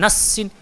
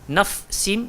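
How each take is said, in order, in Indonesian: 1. Bunyi f dihilangkan dan menyatu dengan s. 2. Bunyi f yang jelas ada sebelum s. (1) "bukan nassin" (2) "Nafsin bukan nassin"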